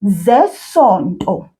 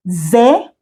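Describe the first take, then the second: First: Said in the usual way. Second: "Zesonto" split into separate syllables; slowly. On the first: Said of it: "the next word is zesonto". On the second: Shown as a demonstration. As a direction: break "Zesonto" up, pausing after each syllable. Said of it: "we'll say it slowly".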